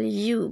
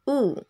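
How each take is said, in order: First: It begins with a y glide sound. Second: It begins with a plain vowel sound. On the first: The speaker calls it right. "pelafalannya adalah U" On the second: The speaker calls it wrong. "bukan U"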